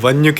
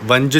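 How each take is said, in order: First: The word ends in a palatal nasal alone. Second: The word ends in a nasal followed by j. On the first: This is the native Sindhi pronunciation. The speaker calls it right. "वञ खे" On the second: This is how a non-Sindhi speaker would say it. The speaker calls it wrong. "वंज चवंदो"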